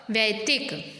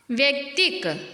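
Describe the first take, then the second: First: वैतिक said as "vai-yaktik"; lower-pitched वैतिक with ऐ after व; ऐ vowel. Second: व्यक्तिक said as "vyak-tik"; short "vyak" opening in व्यक्तिक; wrong form. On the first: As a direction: open वैतिक on a "vai" sound. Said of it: "वा में ऐ की मात्रा आएगी". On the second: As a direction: start व्यक्तिक with the cluster "vya". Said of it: "व्यक्तिक नहीं होता". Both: Shown as a demonstration.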